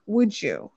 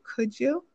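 First: "Would you?" with a falling end; a settled falling "Would you?"; asking would you. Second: "Could you?" with a rising end; a light rising "Could you?"; asking could you. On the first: Wife asking husband the better way, "Would you?" falling. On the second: Wife asking husband a favor, "Could you?" rising. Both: Shown as a demonstration. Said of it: "That it's better to use".

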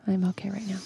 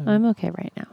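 First: Hushed, voiceless aside; very soft whispered repeat. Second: Said in the usual way. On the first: Real, not acted. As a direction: whisper it as if confidentially.

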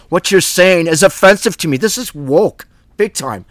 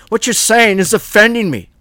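First: Indignant mock complaint, a bit higher and louder; mock offended. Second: Hammed-up outrage, pitched much higher; mock offended whine. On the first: Preacher mocking listeners offended by Paul, indignant. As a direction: huff it out like a touchy listener. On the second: Preacher mocking Paul's easily offended listeners, high whine.

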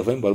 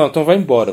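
First: Said in the usual way. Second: A touch of an angry command, a little louder; mock stern dismissal, pushing him out; retold angry order. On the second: Guru angrily sends the devotee away, mildly raised. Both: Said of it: "ficou muito bravo".

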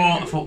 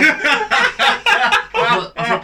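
First: Said in the usual way. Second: Laughing hard, high and loud through the words; can barely get the words out for laughing; cracking up mid-story. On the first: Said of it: "Why has she just put a Cockney accent on?". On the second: Real, not acted.

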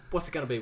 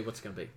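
First: Said in the usual way. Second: Quiet muttered repeat to self. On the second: Real, not acted. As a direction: mutter it to yourself.

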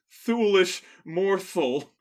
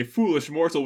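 First: Slow, clumsy vampire line through fangs; vampire with fake fangs. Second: Said in the usual way. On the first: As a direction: ham it up like fangs get in the way. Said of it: "It's much more like". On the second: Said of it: "tried to say "foolish mortal" with fangs in".

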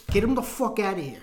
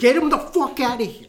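First: Firm pretend mob-boss order, not yet shouted; mildly hammed-up gangster command; mock mobster order. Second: Higher, louder hammed-up gangster order; mock mobster yell. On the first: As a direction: play a mobster giving the order. Mobster act, first milder take. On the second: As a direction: repeat it as an exasperated mob-boss shout. Mobster act, repeated louder.

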